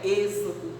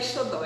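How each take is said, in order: First: The x is sounded as a z. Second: The x is sounded as a plain x. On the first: The speaker calls it right. "O X tem som de Z" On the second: The speaker calls it wrong. "Ela leu o X como se fosse o X mesmo. Não é Exodó"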